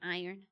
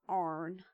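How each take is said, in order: First: It is said with a standard two-syllable pronunciation. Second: It is said in a Southern accent, like 'arn'. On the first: "instead of iron" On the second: "certain Southern accents where they also say Arn"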